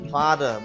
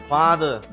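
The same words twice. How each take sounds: The two takes are said the same way.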